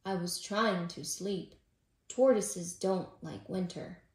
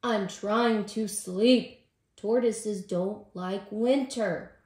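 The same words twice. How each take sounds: First: Mildly grumpy, lower storybook tortoise; a touch of sleepy-head grumble; grumbling. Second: Loud, slow, exasperated complaint; angry. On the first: Tortoise complaining to Robin about lost sleep, mildly grumbling. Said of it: "grumbled Tortoise". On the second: Tortoise snapping at Squirrel about lost sleep, angry. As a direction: drag out each word crossly. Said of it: "Tortoise said angrily". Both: A narrator's reading.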